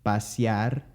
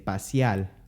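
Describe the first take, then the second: First: The word ends with an R sound. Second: The word ends with an L sound. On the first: "Instead of pasear" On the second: "they would say paseal"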